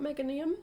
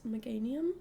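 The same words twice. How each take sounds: First: The name begins sounding like the word mega. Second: The name does not begin like the word mega. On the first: The speaker calls it wrong. "it's not Meganium, just in case you were wondering, even though it does have the word mega in it" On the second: The speaker calls it right. "it's Meganium"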